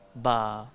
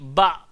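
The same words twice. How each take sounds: First: The vowel ends openly without a glottal stop. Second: The vowel ends with a glottal stop. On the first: This follows the way it is recited. The speaker calls it right. "Dia bunyi ba" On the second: This follows the written spelling. The speaker calls it wrong. "dia tak bunyi ba"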